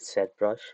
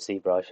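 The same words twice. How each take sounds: First: The Z is said the British way. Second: The Z is said the non-British way. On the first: This is how the speaker's home country says it. "I'm from U K, I should be calling it ZBrush" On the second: This is how the original makers said it. "they used to call it ZBrush"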